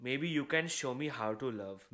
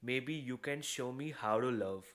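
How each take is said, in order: The two takes are said the same way.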